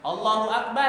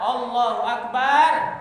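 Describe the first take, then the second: First: The vowel in bar is kept short. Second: The vowel in bar is drawn out long. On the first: It is a statement of greatness. The speaker calls it right. "artinya Allah Maha Besar" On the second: The word becomes the name of a drum. The speaker calls it wrong. "Gak boleh juga memanjangkan lafaz ba. ... artinya Allah itu beduk"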